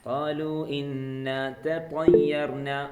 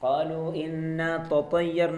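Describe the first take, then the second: First: The second t is an emphatic, heavy t. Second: The second t is a plain t. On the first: The speaker calls it right. "ഫസ്റ്റത്തെ ത സിമ്പിൾ ത ആണ്... പിന്നീടുള്ളത് ത ആണ്" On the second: The speaker calls it wrong. "അല്ല, തൊത്ത അതങ്ങനെ ശീലിക്കരുത്"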